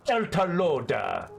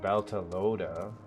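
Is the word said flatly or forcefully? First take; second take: forcefully; flatly. First: The word is said with heavy, aggressive emphasis. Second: The word is said plainly, without extra force. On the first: "There's so much emphasis on it... It's always so aggressive" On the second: "It's not just like"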